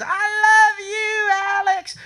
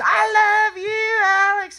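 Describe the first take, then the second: First: High, slow, drawn-out falsetto swoon; mock lady's voice. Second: Screamed love call. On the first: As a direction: stretch it up high like a lovesick fan. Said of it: "this lady goes". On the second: Retold or imitated. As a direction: scream it up high like a crazed fan. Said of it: "And she screams".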